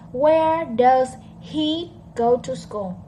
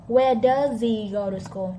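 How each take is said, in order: First: The h in 'he' is clearly pronounced. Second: The h in 'he' is dropped and linked. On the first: "That's very clear" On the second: "The H disappear"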